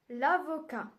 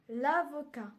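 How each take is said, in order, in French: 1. La voyelle de l'article tombe et se lie. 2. La voyelle de l'article tombe et se lie.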